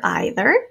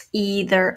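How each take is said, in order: First: Either said "eye-ther". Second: Either said "ee-ther". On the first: Teacher to class, second way: either as "eye-ther". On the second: Teacher to class, first way: either as "ee-ther". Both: Shown as a demonstration. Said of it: "whichever way you say that".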